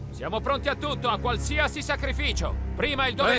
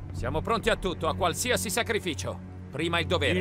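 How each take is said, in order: First: It is said louder and more forcefully. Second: It is said at a normal volume. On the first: The speaker calls it right. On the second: The speaker calls it wrong.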